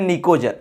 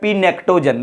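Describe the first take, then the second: First: The word begins with no P sound. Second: The word begins with a sounded P. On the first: The speaker calls it right. "पी यहां पर silent रहता है इसलिए बोलते हैं निकोजन" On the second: The speaker calls it wrong. "बहुत बहुत लड़कों ने करा पड़ता है पी नेक्टोजन"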